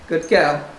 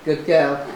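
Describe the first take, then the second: No difference in how they are said.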